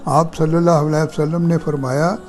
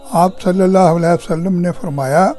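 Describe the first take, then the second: Both takes have the same delivery.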